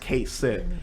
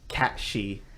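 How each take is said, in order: First: The name sounds like 'Kate Sith'. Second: The name sounds like 'Cat Shee'. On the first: This is the familiar way fans say it. "for the longest time it's pronounced Kate Sid" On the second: This is the original Gaelic pronunciation. "his name is actually pronounced Cat She"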